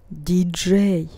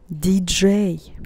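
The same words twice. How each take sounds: The two takes are said the same way.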